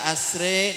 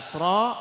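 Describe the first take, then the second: First: The final vowel is tilted toward an 'e' sound. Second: The final vowel is a full, open 'a/o' sound. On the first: This is the imalah reading. "namanya imalah" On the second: This is the plain tahqiq reading. "itu namanya tahqiq"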